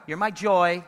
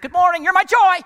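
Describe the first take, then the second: First: Said in the usual way. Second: Much higher and louder, gushing over the top; overdone greeting. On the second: Shown as a demonstration. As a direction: greet them like you're bursting, too much. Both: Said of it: "Whoa, easy".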